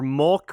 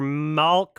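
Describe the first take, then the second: First: The word is said with an O-like vowel. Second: The word is said with an A-like vowel. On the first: "with an O" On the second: "with an A"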